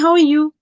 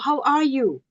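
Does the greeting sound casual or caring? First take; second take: casual; caring. First: It sounds quick and casual, without real interest. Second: It sounds warm and caring, with real interest. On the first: It is only a routine greeting. "if somebody just says" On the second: The person really wants an answer. "They have the tone of voice that is caring"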